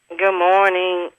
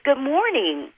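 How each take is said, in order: First: The greeting sounds flat and unenthusiastic. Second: The greeting sounds warm and smiling. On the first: The person is slouching and not smiling. The speaker calls it wrong. "sounds like a fast food restaurant" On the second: The person is sitting up straight and prepared. The speaker calls it right. "when you sit up straight, you prepare your voice"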